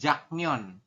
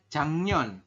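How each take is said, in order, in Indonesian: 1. Suku kata pertama berakhir dengan bunyi k. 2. Suku kata pertama berakhir dengan bunyi ng. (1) "bukan jaknyon" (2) "Jadi dibacanya itu adalah jangnyon"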